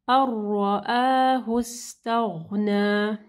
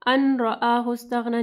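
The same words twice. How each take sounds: First: अर्रआहु with the नून merged into a doubled र, said slowly; slow अर्रआहु, no नून sound before र. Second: अन रआहु with a clear separate नून; wrong reading demo. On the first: Teacher demonstrating idgham without ghunna, slowly. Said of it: "अन रआहु इस्तग़ना नहीं पढ़ना". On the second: Teacher showing the mistake, नून kept separate. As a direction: pronounce अन apart from रआहु. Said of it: "नहीं पढ़ना". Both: Shown as a demonstration.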